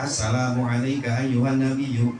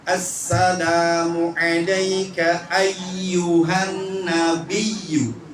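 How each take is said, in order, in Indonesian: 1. Konsonan ganda dibaca pendek. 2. Konsonan ganda dibaca panjang. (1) "begitu aja, nggak ada tasydidnya" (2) "Ini tasydidnya banyak banget bu"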